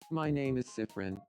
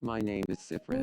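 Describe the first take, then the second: First: The voice is pitched lighter, less deep. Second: The voice is pitched very deep. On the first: The speaker calls it right. "That's better" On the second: The speaker calls it wrong. "Not that it's deep"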